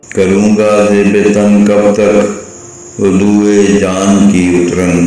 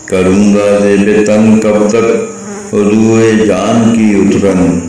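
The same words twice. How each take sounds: The two takes are said the same way.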